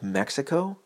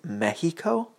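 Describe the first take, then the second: First: It is said with a plain American pronunciation. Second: It is said with a Spanish-style pronunciation. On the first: It is the usual way people in the United States say it. The speaker calls it right. "instead of Mexico" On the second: The speaker calls it wrong. "people say shit like Mexico"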